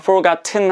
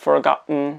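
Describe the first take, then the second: First: The t is fully released with a burst. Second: The t is replaced by a glottal stop. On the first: The speaker calls it wrong. "t를 터뜨리는 게 아니라" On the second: The speaker calls it right. "glottal stop이라 그래가지고 성구 스탑을 해주는 규칙이죠"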